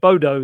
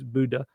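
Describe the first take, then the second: First: The name is said with English-style vowels. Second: The name is said with Norwegian-style vowels. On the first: The speaker calls it wrong. "us calling it Bodo the whole time has apparently been completely wrong" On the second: The speaker calls it right. "It is Buddha"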